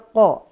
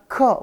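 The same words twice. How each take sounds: First: The consonant is made deep, near the throat. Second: The consonant is made forward, like a plain k. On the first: The speaker calls it right. "Dia ko" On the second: The speaker calls it wrong. "bukan ko, bukan. Kalau ko berarti ka dikasih o, salah"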